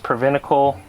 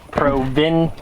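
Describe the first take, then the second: First: The word sounds like 'preventical'. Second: The word sounds like 'provincial'. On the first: The speaker calls it wrong. "I meant to say it right, and I came out the same way" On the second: The speaker calls it right. "Okay, yeah, that makes sense"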